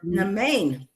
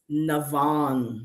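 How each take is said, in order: First: The name has an m sound and ends in 'ain'. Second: The name has a v sound and ends in 'an'. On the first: The speaker calls it wrong. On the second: The speaker calls it right. "You know what her name is?"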